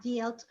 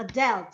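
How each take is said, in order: First: "dealt" with the vowel of "deal"; mispronounced "dealt". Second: "dealt" with a short e, like "delt"; corrected pronunciation. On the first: Student reads aloud to the teacher, "dealt" mispronounced as "deelt". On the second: Student repeats after the teacher's correction, "dealt" with short e. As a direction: say "dealt" to rhyme with "felt". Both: Real, not acted. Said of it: "we have dealt".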